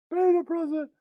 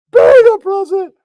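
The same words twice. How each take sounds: First: High, softer repeat; soft echo. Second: High, loud cartoon shout. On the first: Acted. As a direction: drop it to a mutter. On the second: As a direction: belt it out high.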